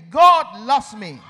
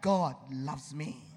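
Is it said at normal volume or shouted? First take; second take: shouted; normal volume. First: It is shouted loudly and forcefully. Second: It is said at normal volume.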